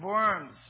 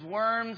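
First: The word is said with German pronunciation. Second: The word is said with English pronunciation. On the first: "in a cool German accent" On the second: "We say that in English as"

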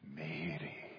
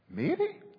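First: The name is said in a tender, loving way. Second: The name is said in a questioning way. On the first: "it was love. Exquisite, tender, personal love" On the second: "Or maybe questioning"

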